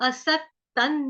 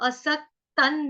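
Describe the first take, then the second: Both takes have the same delivery.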